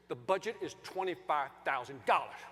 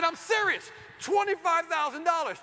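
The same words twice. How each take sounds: First: Lower, deliberate statement of terms; firm. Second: Loud, high emphatic demand; exasperated insistence. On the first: Husband telling the landscaper the budget, firm and measured. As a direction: spell out the limit firmly. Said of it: "just like that". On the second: Husband repeating the ignored budget to the landscaper, loud exasperation. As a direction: hammer the figure home. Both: Retold or imitated.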